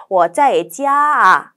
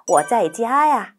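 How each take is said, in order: First: 啊 said as a separate a after 家, very slow; awkward a ending. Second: 呀 said as a smooth ya, very slow; natural ya ending. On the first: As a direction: split 家 and 啊 awkwardly. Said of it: "아, 너무 어색해요". (家 다음 啊를 따로 어색하게) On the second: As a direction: glide 家 into 呀 slowly. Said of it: "요렇게 하는 거죠". (家呀를 야로 자연스럽게 천천히) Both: Shown as a demonstration.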